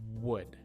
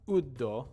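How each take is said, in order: First: A strong W is made with rounded lips. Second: The W is weak and the word ends in a vowel. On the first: The speaker calls it right. "Bring the sound to start at the front of your mouth" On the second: The speaker calls it wrong. "Not uddo, not like that"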